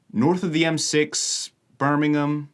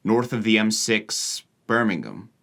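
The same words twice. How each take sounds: First: "North of the M six Birmingham" pitched higher, in an American tune; natural American cadence. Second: "North of the M six Birmingham" in American sounds with a northern English tune; borrowed northern cadence. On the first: Vlogger correcting the mismatch, "North of the M six Birmingham" in natural American cadence. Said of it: "I would say probably something like". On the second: Vlogger showing a confusing mixture, "North of the M six Birmingham" in mismatched northern cadence. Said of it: "if I copy his exact cadence there". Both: Shown as a demonstration.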